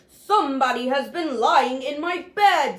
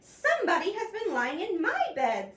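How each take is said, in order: First: It is said in a great big deep voice. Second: It is said in a middle-sized voice.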